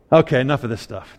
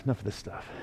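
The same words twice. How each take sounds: First: Said in the usual way. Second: Much softer, lower repeat of "enough of this stuff". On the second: Retold or imitated. Preacher voicing Jesus ending the fuss, muttered aside. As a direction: drop the voice on the second "enough of this stuff". Jesus cutting off worried disciples.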